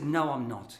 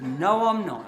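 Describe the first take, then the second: First: Said in the usual way. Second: Louder, laughing through the denial. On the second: Retold or imitated. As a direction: insist again, cracking up. Standoff escalates, laughing retelling.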